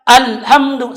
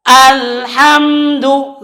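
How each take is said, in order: First: Quick clipped alhamdu; wrong alhamdu. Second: Slow alhamdu, flowing m; correct alhamdu. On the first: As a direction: alhamdu cut short. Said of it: "salah juga". (alhamdu salah) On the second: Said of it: "yang benar adalah". (alhamdu yang benar) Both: Shown as a demonstration.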